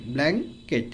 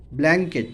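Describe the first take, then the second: First: blanket split in two, blan - ket; syllable by syllable. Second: Said in the usual way. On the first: Shown as a demonstration. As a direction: pause inside blanket after "blan". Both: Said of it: "ভেঙে ভেঙে উচ্চারণ করব".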